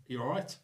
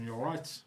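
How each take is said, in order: First: "You all right?" with a rising, pointed "right"; pointed second ask. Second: Said in the usual way. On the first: Shown as a demonstration. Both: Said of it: "drop in that second "all right".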